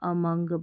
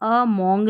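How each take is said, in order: First: The second vowel sounds like a short 'uh'. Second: The second vowel sounds like a rounded 'oh'. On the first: The speaker calls it right. "इसको अमंग पढ़ना है" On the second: The speaker calls it wrong. "उसको अमोंग नहीं बोलना"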